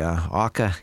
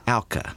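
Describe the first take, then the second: First: The first syllable does not rhyme with cow. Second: The first syllable rhymes with cow. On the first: The speaker calls it wrong. "Did I pronounce that correctly, Elizabeth? Not quite" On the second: The speaker calls it right. "The first syllable rhymes with cow"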